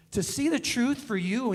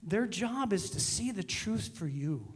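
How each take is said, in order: First: Louder, pressing the phrase home; emphatic repeat. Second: Said in the usual way. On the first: Shown as a demonstration. Preacher repeats the key line to the congregation, louder and emphatic.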